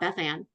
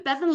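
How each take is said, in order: First: It is said as two separate names. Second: It is said as one single name. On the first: The speaker calls it wrong. "It's not Beth Ann" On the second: The speaker calls it right. "I know how to pronounce it"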